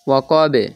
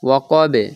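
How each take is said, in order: No difference in how they are said.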